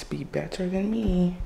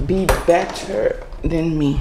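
First: Softer, earnest plea; sincere. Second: Teasing, light urging; playful. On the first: To her viewers, in all seriousness, a soft sincere plea. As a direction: drop the joke and mean it quietly. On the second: To her viewers, a playful nudge before getting serious. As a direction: toss it off half joking. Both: Real, not acted. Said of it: "In all seriousness".

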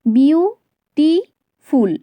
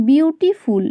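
First: "বিউটিফুল" slowly broken into three parts, বিউ, টি, ফুল; three separate beats on "বিউটিফুল"; split into syllables. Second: Said in the usual way. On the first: Shown as a demonstration. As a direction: say "বিউটিফুল" one syllable at a time with long gaps. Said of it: "তিনবারে উচ্চারিত হচ্ছে".

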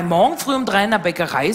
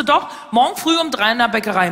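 First: Lightly mocking echo of the agent; questioning echo. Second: Lightly voiced insistent job agent; a hint of an official passing on news; job agent announcing. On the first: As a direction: repeat the news back, mildly incredulous. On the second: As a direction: deliver the news as a firm statement. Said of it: "Und sie so".

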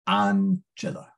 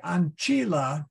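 First: "ancilla" with the stress on AN, short unstressed i; stress on first syllable. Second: "Ancilla" with a long, stressed CHEE; stress on middle syllable. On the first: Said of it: "you put the third syllable from the end". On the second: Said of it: "would only be if the I is long". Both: Shown as a demonstration.

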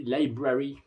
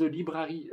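First: "Library" avec « laï » au début; prononciation anglaise corrigée. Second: "Library" dit à la française, première syllabe « li »; prononciation francisée. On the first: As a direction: se reprendre en disant "Library" « laï-bra-ri ». ("Library" prononcé à l'anglaise, « laï ») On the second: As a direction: prononcer "Library" avec « li » au début. ("Library" prononcé « li-bra-ri ») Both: Real, not acted. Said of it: "pardon pour mon magnifique accent anglais".

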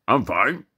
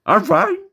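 First: Talking horse. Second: Very high, loud squeaky dog voice; talking dog. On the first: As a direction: answer as a casually chatting horse. Horse answers in joke. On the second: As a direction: yelp the answer as a cartoon dog. Dog answers in joke. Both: Acted.

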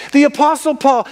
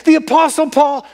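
Both takes have the same delivery.

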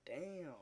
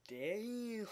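First: Said in the usual way. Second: Damn pushed up high with a hammy fall; exaggerated damn. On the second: Vlogger hamming up his surprise, an exaggerated high damn. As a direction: overplay the damn for comic effect.

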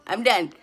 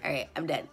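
First: Louder, punchy "done"; loud and emphatic. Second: Said in the usual way. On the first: Real, not acted. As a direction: slam down "done" to end the matter.

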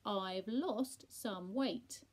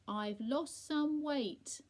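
First: Very slow and loud, word by word; over-enunciate for a deaf listener; laboured repeat. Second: Slow, loud, high-pitched announcement; raised voice, drawn-out words; speaking up. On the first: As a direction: repeat it with LOST drawn out. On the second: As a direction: spell it out for someone hard of hearing. Speaking to deaf Percy. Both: A narrator's reading.

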